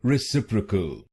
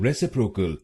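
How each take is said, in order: First: रेसिप्रोकल said re-sip-ri-kal, short 'ri' third syllable; the right way, रेसिप्रोकल with 'ri' not 'pro'; correct pronunciation. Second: रेसिप्रोकल said re-si-pro-kal with a full 'pro'; the mistaken Indian way, रेसिप्रोकल with 'pro'; wrong pronunciation. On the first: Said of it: "आप इसको बोलिए". (सही तरीका: रेसिप्रोकल में छोटा 'रि') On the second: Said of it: "रेसिप्रोकल नहीं बोलिए". (ग़लत तरीका: रेसिप्रोकल में 'प्रो') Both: Shown as a demonstration.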